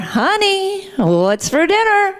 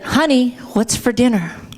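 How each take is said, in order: First: It is said somewhat louder than normal. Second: It is said at a normal, quiet volume.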